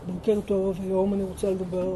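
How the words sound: The voice is quiet and held back inward. The voice is directed inward instead of outward. "מדברים פנימה במקום החוצה"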